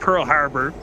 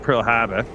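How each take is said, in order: First: It is said in the speaker's own plain accent. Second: It is said in a New England accent.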